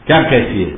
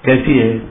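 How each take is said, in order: First: Understated cross retort, low-pitched; mildly angry. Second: Gently asked, lightly acted affection; affectionate. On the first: Acted. Girlfriend answers boyfriend's phone call, mildly angry. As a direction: throw the question back with slight annoyance. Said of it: "गुस्से में". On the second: Boyfriend phones his girlfriend, asking affectionately. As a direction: ask it fondly, with a falling tune. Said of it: "प्यार से पूछा".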